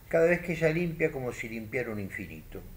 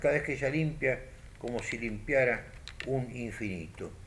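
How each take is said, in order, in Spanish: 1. No hay pausa después de 'limpia'. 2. Sí hay pausa después de 'limpia'. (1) "Fíjense lo que dice acá" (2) "Solo mando una coma hacia el final"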